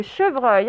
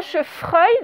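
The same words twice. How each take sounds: First: Said in the usual way. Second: "chevreuil" mispronounced with F for the V; F instead of V. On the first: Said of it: "ce n'est pas chevreuil, donc c'est bien". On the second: Shown as a demonstration. Teacher showing pupils the mistake to avoid, "chevreuil" with an F. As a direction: say "chevreuil" as if spelt "chefreuil". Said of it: "donc c'est bien un V".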